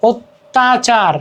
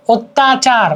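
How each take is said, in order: First: অত্যাচার drawn out slowly, first অ said like ও; slow pronunciation demo. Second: Said in the usual way. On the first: Shown as a demonstration. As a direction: spell out অত্যাচার slowly as ওত্যাচার for students. (ধীরে ধীরে উচ্চারণ করে দেখানো, অত্যাচার যেন ওত্যাচার) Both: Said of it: "অ এর উচ্চারণ প্রায়শ ওকারের মতো হয়".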